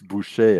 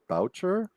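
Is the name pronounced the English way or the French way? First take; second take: French; English. First: The name is said with French sounds. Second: The name is said with English sounds. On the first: This is the original pronunciation of the name. The speaker calls it right. "but it's Boucher" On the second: This is how the man himself says his name. The speaker calls it wrong. "he would pronounce it Boucher"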